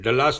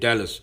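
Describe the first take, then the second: First: The first vowel is a short open 'uh' sound. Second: The first vowel is a front 'a' as in cat. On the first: The speaker calls it wrong. "डलास मत बोलना, वो काजल जी बोलती है" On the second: The speaker calls it right. "डलास नहीं डैलस"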